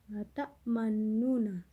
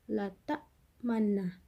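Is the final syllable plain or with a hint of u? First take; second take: u hint; plain. First: The n carries a faint rounded u quality. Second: The double n is said plainly with no u hint. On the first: The speaker calls it right. "karena ada ismam" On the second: The speaker calls it wrong. "tidak dibaca la ta'manna"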